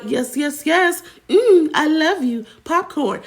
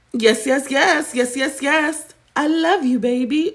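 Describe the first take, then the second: First: High sing-song robotic chirp; mock AI streamer voice; NPC streamer catchphrase. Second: Sing-song high robotic chant; mock AI streamer chirp; NPC streamer catchphrase. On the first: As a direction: mimic the NPC live reacting to gifts. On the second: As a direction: parrot a TikTok NPC livestream. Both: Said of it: "she making ten G's a month by".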